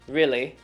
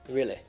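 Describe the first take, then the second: First: The word ends in a long 'ee' vowel. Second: The word ends in a short 'ih' vowel. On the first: The speaker calls it wrong. "instead of saying really" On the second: The speaker calls it right. "we have to change them to I sounds. So I, as you would hear in the word will"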